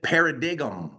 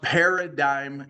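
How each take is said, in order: First: The word is sounded out as it is spelled. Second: The word is said in its standard spoken form. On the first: The speaker calls it wrong. "it looks like you would pronounce it paradigm" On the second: The speaker calls it right. "but it's pronounced paradigm shift"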